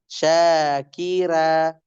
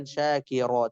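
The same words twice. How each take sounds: First: "syakira" ending in a thin, open "ra"; "syakira" with a clear a, unrounded; light ra. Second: "syakira" ending in a thick, rounded "ro"; quick, softer "syakira" with heavy r; wrong heavy ra. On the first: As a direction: draw "syakira" out slowly, r kept light. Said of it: "tapi syakira". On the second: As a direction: round the last vowel of "syakira" to o. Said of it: "bukan syakira, tapi syakira". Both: Shown as a demonstration.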